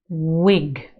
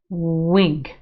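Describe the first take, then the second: No difference in how they are said.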